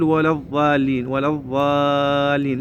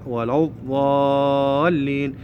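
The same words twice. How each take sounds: First: الضالين with a wrongly made first consonant; demonstrated mistake on ولا الضالين; mistaken dad. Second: الضالين with a heavy dad, long held "aa"; corrected recited model of ولا الضالين. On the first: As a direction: say الضالين without the full, raised-tongue dad. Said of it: "ما نقول". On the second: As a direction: slowly fill the mouth on الضالين. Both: Shown as a demonstration.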